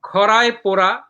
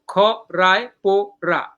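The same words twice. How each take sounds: First: Said in the usual way. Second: খ, রায়, পো, রা as four separate beats; syllable by syllable. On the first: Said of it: "পরের লাইনে". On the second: Shown as a demonstration. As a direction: pause after each of খ, রায়, পো, রা. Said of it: "এটা হলো একটা পর্ব".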